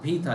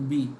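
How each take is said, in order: First: The first consonant is aspirated, with breath. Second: The first consonant is plain, with no breath. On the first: The speaker calls it right. "हाँ भी था" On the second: The speaker calls it wrong. "आपने ये बेटा बी था लिया था, इसको बी।"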